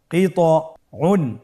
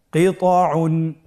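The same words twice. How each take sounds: First: কিতউন drawn out slowly; careful slow demo; slow blended reading. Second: Said in the usual way. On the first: Shown as a demonstration. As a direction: join the syllables slowly. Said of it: "ভেঙে ভেঙে পড়তে হয়". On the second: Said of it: "দ্রুত করে পড়ব".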